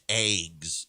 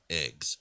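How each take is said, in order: First: It is said with a Southern Illinois accent. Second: It is said with a standard American accent. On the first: This is how a Southern Illinois relative says it. "She says eggs" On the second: This is the usual way to say it. "not eggs"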